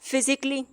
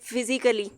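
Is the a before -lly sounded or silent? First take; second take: silent; sounded. First: No extra vowel is sounded before the ending. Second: An extra vowel is sounded before the ending. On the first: "यहाँ पे लिखा ही नहीं हुआ" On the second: "हम normally तो पढ़ते हैं"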